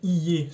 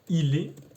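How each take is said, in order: First: The pronoun is reduced to a short y sound. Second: The pronoun is said in full as il. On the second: "c'est bien sûr il est"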